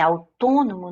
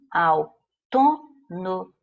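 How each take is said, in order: First: Said in the usual way. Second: "autônomo" in four separate slow beats; syllable by syllable. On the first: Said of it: "eu marquei quatro". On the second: Shown as a demonstration. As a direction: break "autônomo" into au-tô-no-mo. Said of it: "quatro emissões de voz". ("autônomo" silabado, au-tô-no-mo)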